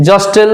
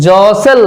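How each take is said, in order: First: জস্টেল with the t sounded; wrong pronunciation. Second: জসেল slowly, with the t silent; correct pronunciation. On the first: Teacher showing what not to say, জস্টেল with sounded t. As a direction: say জস্টেল wrongly, a clear t after s. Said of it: "নয়". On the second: Teacher introducing jostle, slow জসেল with silent t. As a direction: draw out জসেল, no t after s. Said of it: "জস্টেল নয়". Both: Shown as a demonstration.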